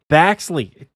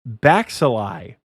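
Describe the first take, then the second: First: The name is said with two syllables. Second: The name is said with three syllables. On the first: The speaker calls it right. "Damn it, it is Baxley" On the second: The speaker calls it wrong. "he knows I said it wrong"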